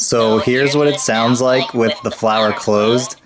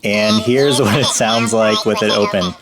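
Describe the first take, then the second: First: Slow, pitched-up toy fairy voice; fairy voice changer. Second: Pitched even higher through the toy; squeaky fairy voice changer effect. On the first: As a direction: speak through a fairy voice changer. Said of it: "let's do the fairy voice changer". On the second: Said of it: "it gets to an even higher pitch". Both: Shown as a demonstration.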